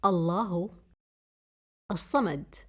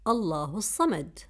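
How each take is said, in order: First: Word by word. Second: Said in the usual way. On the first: Shown as a demonstration. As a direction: say each word alone, with pauses.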